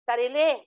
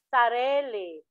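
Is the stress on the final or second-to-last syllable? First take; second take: final; second-to-last. First: The stress is on the final syllable. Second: The stress is on the second-to-last syllable.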